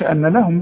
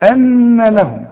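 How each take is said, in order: First: The nasal n sound is cut short. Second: The nasal n sound is held for two beats. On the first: The speaker calls it wrong. "ما تقولش ان لهم بقى" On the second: The speaker calls it right. "لا ان لهم"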